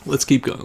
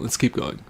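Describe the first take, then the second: First: Said in the usual way. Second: "Let's keep going" whispered under breath; whispered pep talk to self. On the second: Real, not acted. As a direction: murmur it to yourself, unvoiced.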